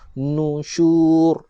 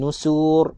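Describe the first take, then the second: First: The middle consonant is an 'sh' sound. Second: The middle consonant is a plain 's' sound. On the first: The speaker calls it right. "shin jangan dibaca dengan huruf sin" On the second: The speaker calls it wrong. "Tak nak"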